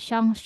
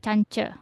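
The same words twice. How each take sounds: First: Chance is pronounced the French way. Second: Chance is pronounced the English way. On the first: The speaker calls it right. "diserap ke bahasa Prancis ya. Maka menjadi Chance" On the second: The speaker calls it wrong. "enggak Chance"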